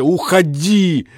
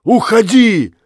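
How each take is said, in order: First: Broken go away. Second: Much higher, louder furious Уходи!; shouted go away. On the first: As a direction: drag Уходи! out, wavering. Husband torn between rage and love. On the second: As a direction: bark Уходи! at her. Jealous husband drives wife away. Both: Acted.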